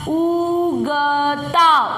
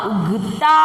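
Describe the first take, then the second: First: उगता stretched out slowly, syllable by syllable; slow reading demo. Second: Said in the usual way. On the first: Shown as a demonstration. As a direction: draw out उगता slowly for the child. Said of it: "अब पढ़ो, देखिए पूरा शब्द". (धीरे धीरे खींचकर पढ़ना) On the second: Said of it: "देखिए पूरा शब्द".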